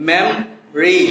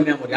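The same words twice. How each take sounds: First: "মেমরি" as two syllables, mem-ri; dropped vowel. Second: "মেমোরি" in three full syllables, me-mo-ri; common mispronunciation. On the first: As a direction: drop the "o" in "মেমরি". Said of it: "ওটাকে যদি আমরা drop করে দিই". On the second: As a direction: keep the middle "o" in "মেমোরি". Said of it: "আসলে শব্দটা মেমোরি না". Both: Shown as a demonstration.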